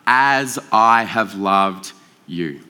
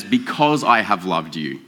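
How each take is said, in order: First: "as" held long and very slow; slow, deliberate "as I have loved you"; right reading, stress on as. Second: "because" leaned on, slowed and lower; slow, heavy "because I have loved you"; wrong reading, stress on because. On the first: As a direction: give "as" the full weight, drawn out. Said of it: "But what he's saying, no". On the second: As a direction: stress the word "because" as the common misreading. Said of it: "we often, I think, read that as". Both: Shown as a demonstration.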